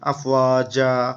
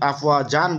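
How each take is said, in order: First: The word ends with a lengthened a vowel. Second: The word ends with an n sound. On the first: The speaker calls it right. "আফওয়াজা বলা বলতে হবে, একটু আয় কালিফ টানতে হবে" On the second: The speaker calls it wrong. "দুই আফওয়াজান বলা যাবে না"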